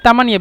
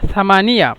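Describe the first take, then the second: First: The word begins with a plain 't' sound. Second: The word begins with a 'th' sound. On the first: This is the Egyptian dialect form. "মিশরীয়রা বলে সা তামানিয়া" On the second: This is the standard form. "মূলত এ- এখানে সা সামানিয়া"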